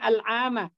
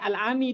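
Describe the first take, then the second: First: The word ends with an 'a' vowel. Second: The word ends with an 'i' vowel. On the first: It marks an adverb of time in the accusative. The speaker calls it right. "Makanya al-ama" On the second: It would need a preposition before it. The speaker calls it wrong. "nggak boleh al-ami di sini karena nggak ada huruf jernya"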